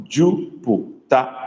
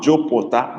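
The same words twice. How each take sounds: First: Slow Jupiter with a close u; correct Igbo vowels. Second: Jupiter with an open o, the wrong vowel; wrong version. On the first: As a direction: draw out Jupiter with clean u vowels. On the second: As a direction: Jupiter said like jopota, quickly. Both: Shown as a demonstration. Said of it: "Not Jupiter, but Jupiter".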